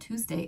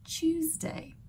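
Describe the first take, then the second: First: Tuesday is said with an American accent. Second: Tuesday is said with a British accent. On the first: The speaker calls it wrong. "my American accent" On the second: The speaker calls it right. "the correct British one"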